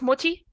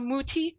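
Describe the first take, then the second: First: The first vowel is kept short. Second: The first vowel is drawn out long. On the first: This is the original German way of saying it. "instead of Mutti" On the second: This is an anglicized way of saying it. "they anglicize it a little bit by calling it longer"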